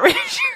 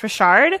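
First: The name is said with an English pronunciation. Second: The name is said with a French pronunciation. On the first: "it's not Richard" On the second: "It's French in my head"

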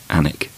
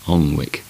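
First: The name is said like 'Annick'. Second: The name is said the way it is spelled. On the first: The speaker calls it right. "which is actually" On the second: The speaker calls it wrong. "bizarrely pronounced places"

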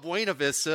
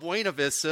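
First: It is said the way Oklahomans say it. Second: The same.

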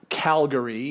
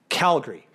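First: The word is said with three syllables. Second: The word is said with two syllables. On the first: The speaker calls it wrong. "So it's not Calgary" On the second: The speaker calls it right. "it's Calgary. So think of it as a G-R-E-E at the end"

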